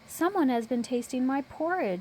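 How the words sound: It is said in a small, high voice. "in a little baby voice"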